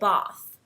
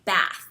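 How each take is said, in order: First: It is said with a British accent. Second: It is said with an American accent.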